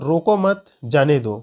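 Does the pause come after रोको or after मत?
after मत. There is a pause right after मत.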